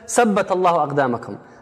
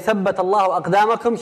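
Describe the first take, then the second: First: The first word begins with an 's' sound. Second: The first word begins with a 'th' sound. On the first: The sentence does not mean anything. The speaker calls it wrong. "she was saying سبت, which means Saturday" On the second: May God make your feet firm. The speaker calls it right. "She wanted to say"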